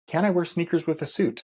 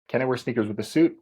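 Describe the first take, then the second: First: It is spoken in an imitation computer voice. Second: It is spoken in a normal natural voice. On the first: "my ChatGPT voice" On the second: "in a normal voice now"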